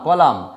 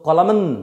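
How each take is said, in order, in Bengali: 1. শব্দটি 'ম' দিয়ে শেষ হয়, 'ন' নেই। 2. শব্দের শেষে একটি অতিরিক্ত 'ন' ধ্বনি যোগ হয়। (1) "এটাকে বলি কলাম" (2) "কলামন এরকম নয়"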